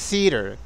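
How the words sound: It is said with an American accent. "Y los americanos digan theater"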